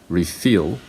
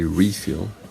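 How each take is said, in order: First: The stress is on the second syllable. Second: The stress is on the first syllable. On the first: It names an action. "that's a verb" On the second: It names a thing. "that's a noun"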